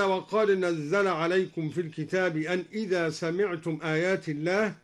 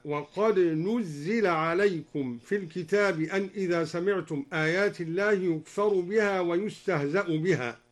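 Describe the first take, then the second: First: Said in the usual way. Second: "نزل" as nuzzila; u on the nun, i on the zay in "نزل"; passive vowelling. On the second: Shown as a demonstration. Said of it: "بضم النون وكسر الزاي".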